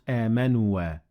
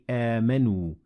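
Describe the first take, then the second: First: The word ends with an extra added vowel. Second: The word ends on a single final vowel. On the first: The speaker calls it wrong. "not amanua" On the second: The speaker calls it right. "the alif is not pronounced. So we say amanu"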